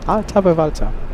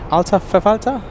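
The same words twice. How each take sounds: First: The second word begins with a V sound. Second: The second word begins with an F sound. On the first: The speaker calls it wrong. "wrong all this time" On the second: The speaker calls it right. "it's not a V, it's an F"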